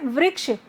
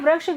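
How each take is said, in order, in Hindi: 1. पहले अक्षर में साफ़ 'ri' ध्वनि है। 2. पहले अक्षर में साफ़ 'ri' ध्वनि नहीं है। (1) "री की मात्रा है तो वृक्ष होना चाहिए" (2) "वृक्ष गलत उच्चारण होता है।"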